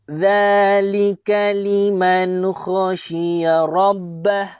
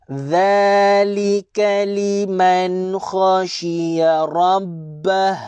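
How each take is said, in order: The two takes are said the same way.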